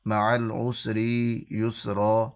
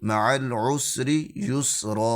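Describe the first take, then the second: First: A sound is stretched out far too long. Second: Every sound is held at normal length. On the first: The speaker calls it wrong. "किसी भी हरफ को बेजा लंबा नहीं करना, ... ये तरीक़ेकार अच्छा नहीं है" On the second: The speaker calls it right. "ठीक है"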